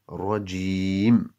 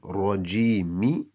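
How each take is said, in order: First: The word ends on a bare m consonant. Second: The word ends with a short vowel after m. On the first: The speaker calls it right. "we give that a jazm" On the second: The speaker calls it wrong. "Instead of saying Rajimi"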